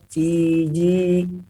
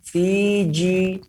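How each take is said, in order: First: The j only lightly touches the palate. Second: The j is pressed hard against the palate. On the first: The speaker calls it right. "Tapi sekedar menempel. Fiji diha halus" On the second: The speaker calls it wrong. "jim ini bukan jimnya orang Jawa. Bukan Fiji"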